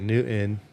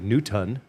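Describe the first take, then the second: First: The T is left out entirely. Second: The T is pronounced fully and clearly. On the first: "or they'll say Newton" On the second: "they'll enunciate it wrong and say Newton"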